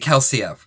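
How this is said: The name ends in an 'uh' sound. The speaker calls it wrong. "We pronounce our E Rs at the end of words in Australia as an uh sound"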